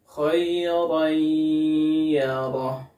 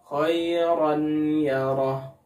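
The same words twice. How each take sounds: First: The n merges into y with a long nasal hum. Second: The n is said clearly before y, without merging. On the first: The speaker calls it right. "harus disertai dengan gunnah dan ditahan selama dua harakat" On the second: The speaker calls it wrong. "ini lebih salah lagi ... disebut dengan idhar"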